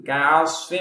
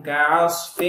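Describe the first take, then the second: No difference in how they are said.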